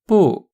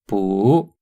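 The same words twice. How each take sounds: First: The pitch falls across the syllable. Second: The pitch rises across the syllable. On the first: "In the first one, the tone is falling" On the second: "the second one is rising"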